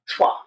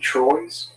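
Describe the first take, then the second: First: It is said with a French pronunciation. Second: It is said like the English word Troy's. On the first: The speaker calls it right. "three in French" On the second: The speaker calls it wrong. "they kept mispronouncing it"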